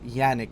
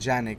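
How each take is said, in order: First: The name begins with a Y sound. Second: The name begins with a J sound. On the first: The speaker calls it right. "I was told that's how it's pronounced" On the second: The speaker calls it wrong.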